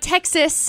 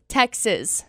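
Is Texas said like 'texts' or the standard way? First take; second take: standard; like texts. First: Texas is pronounced the usual way. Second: Texas begins with a sound like 'texts'. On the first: "Not Texas" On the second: "As in text messages"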